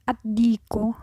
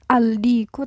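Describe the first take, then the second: First: The L merges into the following consonant. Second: The L of the article is clearly pronounced. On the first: The speaker calls it right. "alif lamnya nggak dibaca tapi langsung masuk melebur" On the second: The speaker calls it wrong.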